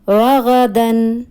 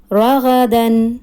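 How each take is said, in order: Both takes have the same delivery.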